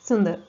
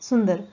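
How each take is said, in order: No difference in how they are said.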